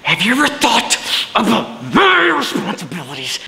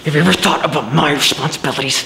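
First: It is delivered with strong passion. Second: It is delivered in a restrained way.

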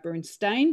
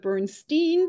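First: The name gets the speaker's preferred, non-American pronunciation. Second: The name gets the common American pronunciation. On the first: The speaker calls it right. "I'm going to stick with my Bernstein because I know that's the right way to say it" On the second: The speaker calls it wrong. "Many Americans go with the Bernstein because we'll turn it around"

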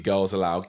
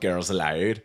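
First: It is said in the speaker's plain accent. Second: It is said in a put-on Irish accent.

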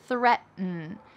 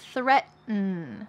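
First: The middle T is dropped and swallowed. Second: The middle T is clearly pronounced.

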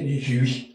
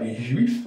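First: The final F sound is silent. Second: The final F sound is pronounced. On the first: "On ne prononçait pas le F" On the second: "on ne disait pas les juifs"

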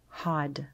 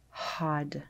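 No difference in how they are said.

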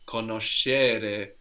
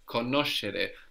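First: The stress is not on the third-last syllable. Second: The stress is on the third-last syllable. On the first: The speaker calls it wrong. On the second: The speaker calls it right. "we have the accent third from the end"

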